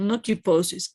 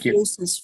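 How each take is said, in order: First: The middle consonant is a p sound. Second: The middle consonant is an f sound. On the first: The speaker calls it wrong. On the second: The speaker calls it right. "P H always has an F"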